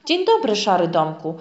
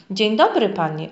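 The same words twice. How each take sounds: First: Thick voice. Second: Polite greeting. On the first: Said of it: "odpowiedziała postać grubym głosem". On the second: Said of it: "odezwał się grzecznie domek". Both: A narrator's reading.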